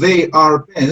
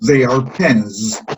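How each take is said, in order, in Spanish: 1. La palabra 'are' es tónica. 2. La palabra 'are' es átona. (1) "estamos estresando la- el verbo are" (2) "lo que tenemos que decir es"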